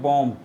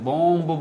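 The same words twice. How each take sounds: First: The final b sound is left silent. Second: The final b sound is pronounced. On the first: The speaker calls it right. "ये सारे silent letters है" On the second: The speaker calls it wrong. "बॉम्ब बोलते हैं, ये भी गलत है"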